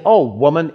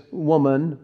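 First: Louder, exasperated "Oh, woman"; mock dismissive sigh of address; disrespectful address. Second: Said in the usual way. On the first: Shown as a demonstration. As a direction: say it as a put-down, lightly exaggerated. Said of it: "he doesn't say, "Oh, woman". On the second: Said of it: "but he doesn't say".

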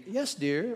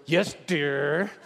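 First: "Yes, dear" lifted and light, rising on yes; sweet yes dear. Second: Grudging yes dear. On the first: Husband answering his wife, sweetly agreeable. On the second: Husband answering his wife, grudging and put-upon. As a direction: grumble it reluctantly. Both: Shown as a demonstration. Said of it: "how you say".

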